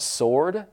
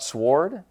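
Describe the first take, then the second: First: The w sound is silent. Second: The w sound is pronounced. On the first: The speaker calls it right. "did you know it's sword" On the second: The speaker calls it wrong. "not sword"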